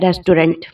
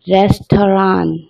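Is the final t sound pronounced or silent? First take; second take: pronounced; silent. First: The word ends with an audible t sound. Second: The word ends without any t sound. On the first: The speaker calls it wrong. "इसे हम रेस्टोरेंट कहते हैं" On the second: The speaker calls it right. "टी जो last में है वो silent है"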